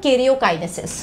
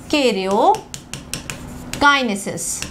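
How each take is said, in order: First: Said in the usual way. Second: "karyokinesis" stretched very slowly, syllable by syllable; drawn-out dictation. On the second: Shown as a demonstration. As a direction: draw out "karyokinesis" for note-takers. Repeats the term slowly for class.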